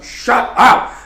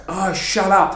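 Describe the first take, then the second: First: High, loud retold yell. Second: Higher, exasperated mock protest; annoyed complaint. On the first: Child retold yelling at the neighbours' dog, loud shout. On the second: Child to the neighbours' barking dog, mildly exasperated. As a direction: snap mildly at a noisy dog. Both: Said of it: "yelling at the dog".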